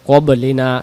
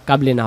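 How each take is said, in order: First: The first vowel is heavy and dark. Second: The first vowel is light and thin. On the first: The speaker calls it right. "শাপলা ফুল যেখানে মোটা হবে" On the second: The speaker calls it wrong. "কাবলিনা হবে না"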